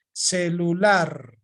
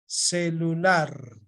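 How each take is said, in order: First: Celular drawn out, the last syllable held; slow stressed demo. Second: Celular repeated slowly and quieter; slow softer repeat. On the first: Teacher showing the class the stress of celular, drawn out. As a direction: stretch celular slowly to show where it is stressed. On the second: Teacher repeating celular softly for the class. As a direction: say celular again slowly, under your breath. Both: Shown as a demonstration.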